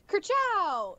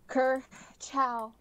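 First: It is said in a warm, friendly way. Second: It is said in a final, parting way. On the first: We are in love and getting married. "it's friendly" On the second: This is goodbye forever. "that's a goodbye, that's a forever goodbye"

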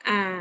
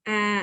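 No difference in how they are said.

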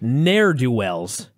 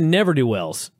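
First: The first word is shortened to one syllable, ne'er. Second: The first word has two syllables, never.

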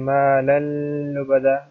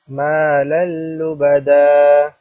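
First: The joined sound is stretched and held long. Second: The joined sound is kept short, not stretched. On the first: The speaker calls it wrong. "Do not stretch it" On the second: The speaker calls it right. "It is مَا لَلُّ بَدَى"

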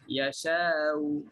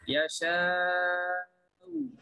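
First: The long vowel is held for two counts. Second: The long vowel is held for six counts. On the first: "Kemudian dua harakat sahaja Yasha'u dengan tahsilkan Hamzah berserta raw" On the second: "Enam harakat, tashil, tashilkan Hamzah dan raw"

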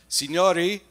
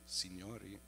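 First: It is said at normal loudness. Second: It is said more softly.

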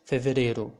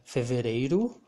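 First: The ending has a plain e, no i. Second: The ending has an e-i diphthong.

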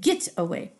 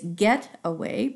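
First: It is said in a rural back-country dialect. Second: It is said in standard pronunciation. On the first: "the author is using get away" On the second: "Really, it's get away"

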